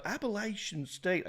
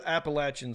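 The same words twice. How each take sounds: First: Appalachian State said app-uh-LAY-shun State, a bit higher; a light mock sportscaster read; newscaster pronunciation. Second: Appalachian said app-uh-LATCH-un, short a with ch; local pronunciation. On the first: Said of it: "they go". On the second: Shown as a demonstration. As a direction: say Appalachian as the school does, LATCH. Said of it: "That school pronounces it Appalachian".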